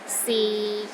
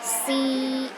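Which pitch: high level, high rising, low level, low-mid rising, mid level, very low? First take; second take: low level; high level. First: The pitch stays low and level. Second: The pitch stays high and level. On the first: "the sixth tone is low and steady, but not as low as the fourth tone" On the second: "The first tone is high and steady"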